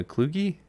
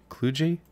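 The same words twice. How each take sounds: First: Kluge said as "KLOO-ghee", rising in doubt; Kluge with hard g. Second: Kluge said as "KLOO-jee", rising in doubt; Kluge with soft g. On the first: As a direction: try Kluge with a hard g, questioning. Tries pronunciations of a German name. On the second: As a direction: try Kluge with a j sound, questioning. Second try at the German name. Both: Real, not acted.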